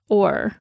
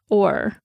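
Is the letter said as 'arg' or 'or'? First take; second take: or; or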